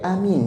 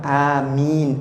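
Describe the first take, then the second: First: Both vowels are said short. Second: The vowels are drawn out long. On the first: A person who believes. "Dibaca sama-sama pendek" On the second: Please grant our prayer. "Kalau dibaca panjang"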